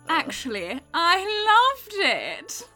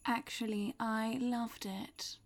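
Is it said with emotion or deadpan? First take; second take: emotion; deadpan. First: It is said with some emotion. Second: It is said flat, without emotion.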